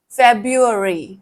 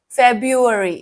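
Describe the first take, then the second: No difference in how they are said.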